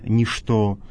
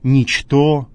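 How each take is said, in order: First: The word is pronounced in the modern Russian manner. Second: The word is pronounced exactly as it is spelled. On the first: The speaker calls it wrong. "а не «ничто»" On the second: The speaker calls it right. "так, как оно написано"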